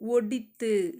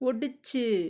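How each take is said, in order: First: The middle consonant is a 'th' sound. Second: The middle consonant is a 'ch' sound. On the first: This is the formal written form. "ஒடித்து எழுத்து வழக்கு" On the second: This is the everyday spoken form. "ஒடிச்சு அப்படின்னா பேச்சு வழக்கு"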